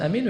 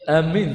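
First: The first vowel is short and the m single. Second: The m is doubled after the first vowel. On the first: O God, answer our prayer. "فجاء القصر" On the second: People heading toward something. "القسم الثالث وهو ماذا؟ التشديد"

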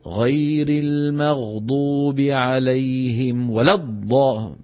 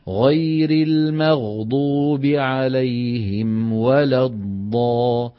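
First: Some vowels are snatched quickly and unevenly. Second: The vowels are held for equal, even lengths. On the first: The speaker calls it wrong. "مو" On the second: The speaker calls it right. "نفس السرعة"

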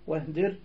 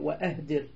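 First: The glottal stop is dropped and the words link. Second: The glottal stop is clearly pronounced. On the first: The short form keeps the verse metre. "للوزن" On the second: This is the regular form outside the verse. "وإلا فهي همزة قطع"

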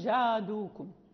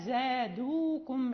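First: The z sound is heavy and thick. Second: The z sound is light and thin. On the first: The speaker calls it wrong. "لا نقول زادوكم، لا يعني نفخمها" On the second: The speaker calls it right. "نرققها"

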